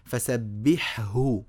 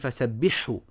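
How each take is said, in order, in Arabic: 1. الحاء والهاء مُنفصلان في النطق. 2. الحاء والهاء مُدغمان معًا في النطق. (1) "بين الحاء من الهاء وافصلهم كده في النطق" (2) "في ناس يقولوا ... لا خطأ"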